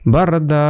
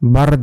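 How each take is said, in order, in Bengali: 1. শব্দটি দীর্ঘ, টেনে উচ্চারিত 'a' স্বরে শেষ হয়। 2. শব্দটি ব্যঞ্জনে শেষ হয়, শেষে কোনো স্বরধ্বনি নেই। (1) "একালিপ টেনে পড়তে হবে" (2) "যদি একালিপ না থাকতো, যদি থামার চিহ্ন থাকতো, এখানে হতো বারদ"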